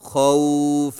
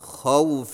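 First: The vowel glide is stretched and drawn out. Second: The vowel glide is short, not drawn out. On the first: The speaker calls it wrong. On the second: The speaker calls it right.

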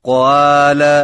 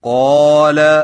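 First: The long 'a' is read thin and light. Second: The long 'a' is read heavy and full. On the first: The speaker calls it wrong. "اس طرح الف کو باریک آواز میں پڑھنا ... غلط ہے" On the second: The speaker calls it right. "موٹے الف کی مشق کیجیے"

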